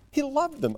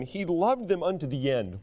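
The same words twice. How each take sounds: First: He loved them, loved jumping high; high stressed loved. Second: Said in the usual way. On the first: Real, not acted. Preacher driving home Christ's love, stressed loved.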